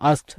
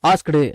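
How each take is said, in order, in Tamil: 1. கடைசியில தெளிவான t ஒலியோட முடியுது. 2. t-யோட கூடுதல் உயிரெழுத்தோட முடியுது. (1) "ஆஸ்க்ட் அப்படின்னு பேச வேண்டாம்" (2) "ஆஸ்க்டு அப்படின்னு பேச வேண்டாம்"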